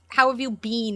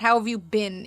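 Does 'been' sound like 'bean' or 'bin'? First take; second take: bean; bin. First: The word 'been' has a long 'ee' vowel. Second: The word 'been' has a short 'i' vowel. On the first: The speaker calls it right. "It's bean" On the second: The speaker calls it wrong. "Americans say bin"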